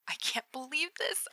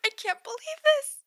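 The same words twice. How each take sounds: First: Awed whisper. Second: High, loud fangirl squeal; squealing excitement. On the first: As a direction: barely breathe the words. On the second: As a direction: shriek it with glee. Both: Acted. Text repeated in building excitement.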